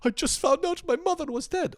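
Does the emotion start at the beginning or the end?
beginning. It sounds emotional from the very first word.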